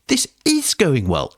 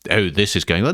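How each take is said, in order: First: It is said sincerely, meaning it. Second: It is said sarcastically, meaning the opposite.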